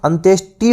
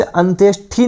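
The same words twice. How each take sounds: First: अंत्येष्टि ending in unaspirated "-shti"; correct अंत्येष्टि. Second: अंत्येष्टि ending in aspirated "-shthi"; mispronounced अंत्येष्टि. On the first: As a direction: say अंत्येष्टि with a hard T, no puff of air. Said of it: "अंत्येष्टि होता है". (अंत्येष्टि के अंत में साफ़ 'ष्टि' बोलें) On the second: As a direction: say अंत्येष्टि with a breathy TH in the last syllable. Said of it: "नहीं होता, अंत्येष्टि होता है". (अंत्येष्टि के अंत में 'ष्ठि' बोलें) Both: Shown as a demonstration.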